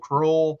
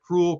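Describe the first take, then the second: First: The name has an oh vowel, rhyming with roll. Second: The name sounds like the word cruel. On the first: "some people have pronounced it" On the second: "some people have pronounced it Cruel"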